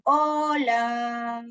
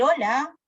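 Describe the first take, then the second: First: "hola" stretched long, both vowels held; drawn-out sound. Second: Said in the usual way. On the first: Shown as a demonstration. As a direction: hold out the vowels of "hola", ooo-laaa. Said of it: "Se extiende el sonido". ("hola" alargado, extendiendo el sonido) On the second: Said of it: "la cantidad de discurso".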